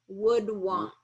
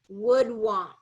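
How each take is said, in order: The two takes are said the same way.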